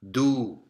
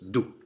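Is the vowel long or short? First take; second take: long; short. First: The vowel is held long. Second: The vowel is cut short. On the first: "If it was followed by the long vowel, it would be do" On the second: "It's a short vowel. It's a little marker. So it's do"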